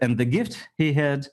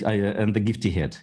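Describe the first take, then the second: First: The h is pronounced, words kept separate. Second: The h is dropped, words run together. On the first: It is clearer to understand. The speaker calls it right. "я все-таки буду выбирать" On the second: It can be misheard as a different word. The speaker calls it wrong. "Я сам не буду говорить"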